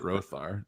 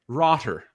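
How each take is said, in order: First: The middle consonant is a th sound. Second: The middle consonant is a t sound. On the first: The speaker calls it wrong. "it's obviously not Rothar" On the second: The speaker calls it right. "so I'm going to say Rotter"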